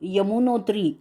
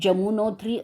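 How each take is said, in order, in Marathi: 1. नाव Y उच्चाराने सुरू होते. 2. नाव J उच्चाराने सुरू होते. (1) "आपण मराठी माणसं यमुनोत्री असा उच्चार करतो" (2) "उत्तरेकडची माणसं जमुनोत्री असं म्हणतात"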